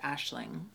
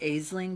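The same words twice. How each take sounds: First: The name is said with its real pronunciation. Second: The name is read the way it looks written. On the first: The speaker calls it right. "but I think it's pronounced Aisling" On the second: The speaker calls it wrong. "I think it's spelled like Aisling"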